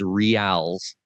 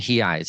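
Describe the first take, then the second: First: The currency name is said the English way. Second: The currency name is said the Portuguese way. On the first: "what you would pronounce as reals" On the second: "the proper way of saying"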